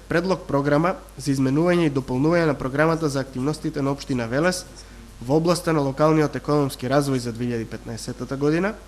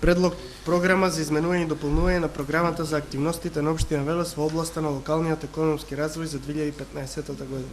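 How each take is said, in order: No difference in how they are said.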